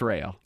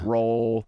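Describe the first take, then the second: First: The vowel sounds like the one in rail. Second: The vowel sounds like the one in roll. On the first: The speaker calls it right. "But it's rail" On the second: The speaker calls it wrong. "pronouncing it all kinds of different ways"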